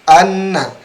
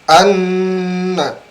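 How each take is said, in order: First: The doubled n carries only a brief nasal hum. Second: The doubled n carries a long, full nasal hum. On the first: The speaker calls it wrong. "hanya sekilas saja" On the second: The speaker calls it right. "sempurnakan di eh, hidung"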